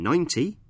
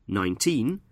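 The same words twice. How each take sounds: First: Ninety with the stress on "nine"; "ninety", first syllable stressed. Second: Put-on nineteen with the stress on "teen"; "nineteen", second syllable stressed. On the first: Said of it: "we stress the first syllable". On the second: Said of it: "we stress the second syllable". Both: Shown as a demonstration.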